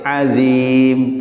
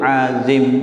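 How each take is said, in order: First: The second vowel is said long. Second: The second vowel is said short. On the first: The speaker calls it right. "Yang benar tuh ada ya-nya" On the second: The speaker calls it wrong. "enaknya kan pendek"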